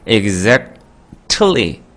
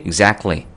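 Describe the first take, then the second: First: The t sound is fully pronounced. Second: The t sound is dropped. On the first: "exactly 이렇게 하는 게 너무 힘들기 때문에" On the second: "원어민들이 exactly 라고 발음을 하는 거지 철자는 t라고 써 있죠"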